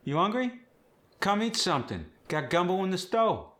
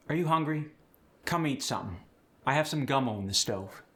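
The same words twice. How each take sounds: First: Higher, sing-song Cajun welcome; Cajun host. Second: Said in the usual way. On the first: Shown as a demonstration. Host inviting guest to eat, high Cajun lilt. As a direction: offer the gumbo like a Cajun mama. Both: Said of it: "with the Cajun accent".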